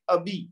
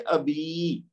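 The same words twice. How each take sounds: First: The final vowel is short. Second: The final vowel is held long. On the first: "यानी बा को लंबा नहीं करेंगे" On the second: "क्योंकि उसमें या मादा आ गई है"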